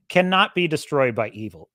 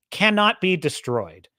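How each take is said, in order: First: Said in the usual way. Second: "cannot" leaned on, slow and firm; stress on cannot. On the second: Real, not acted. Speaker insists goodness survives evil, slow emphasis on "cannot". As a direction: press hard on "cannot", taking your time. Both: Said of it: "emphatic repeated statement".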